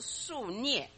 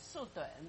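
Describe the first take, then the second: First: The second syllable is pronounced nie. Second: The second syllable is pronounced dun. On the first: It means the shoot left on a stump after felling. "一个读音呢是那耶涅啊" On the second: It means a wooden stump block. "还有一个音呢叫盾"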